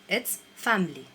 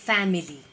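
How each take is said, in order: First: Family said fam-ly, the i dropped; correct pronunciation. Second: Family said loud with each syllable hit, fa-mi-li; wrong, overstressed. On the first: Teacher giving students the right family. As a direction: say family in two syllables. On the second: Teacher showing students the overstressed family. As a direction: overpronounce family as the mistake. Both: Shown as a demonstration. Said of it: "So it's not like that".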